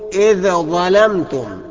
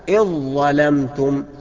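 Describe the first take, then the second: First: The dh is pronounced separately before the next consonant. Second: The dh merges fully into the next consonant. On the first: The speaker calls it wrong. "أوعى تقول إذا ظلمتم، خطأ" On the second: The speaker calls it right. "الصواب إذ ظلمتم بإدغام الذال في الظاء"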